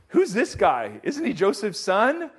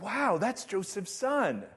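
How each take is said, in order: First: It sounds suspicious and accusing. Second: It sounds amazed and impressed.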